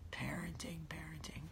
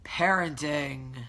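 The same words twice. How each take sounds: First: PARENTING hushed, dropping into a whisper; very soft PARENTING, then whispered; fading to whisper. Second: Slow, stretched-out PARENTING; drawn-out word. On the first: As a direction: let PARENTING shrink away to nothing. Same word repeated, fading to whisper. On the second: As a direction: draw PARENTING right out at full voice. Wry repeated word after scolding child. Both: Real, not acted.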